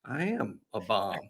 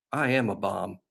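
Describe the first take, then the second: First: Flat, quiet, deadpan I am a bomb, slow; matter-of-fact. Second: Matter-of-fact. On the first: Quarterback calmly agreeing he is a bomb, deadpan. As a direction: state it like a plain fact. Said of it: "He, he, he said it like that". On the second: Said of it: "he said with a straight look on his face". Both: Retold or imitated.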